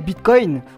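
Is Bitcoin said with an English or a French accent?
English. It is said with an English-style accent.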